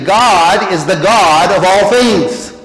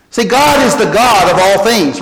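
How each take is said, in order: First: Slow, deliberate, every word weighted; slowly spelled out for the congregation; slow emphatic restatement. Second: Said in the usual way. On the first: Shown as a demonstration. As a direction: lay it down slowly so it sinks in. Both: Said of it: "Let me say that again".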